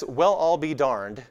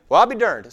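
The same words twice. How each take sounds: First: Said in the usual way. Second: Surprised West Texas exclamation, words squashed; West Texas accent. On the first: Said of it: "So that's". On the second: Acted. Repeating grandfather's phrase for puzzled listeners, West Texas accent. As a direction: run it together, high and loud, West Texas. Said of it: "said very quickly in a West Texas accent".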